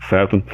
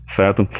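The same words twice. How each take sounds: The two takes are said the same way.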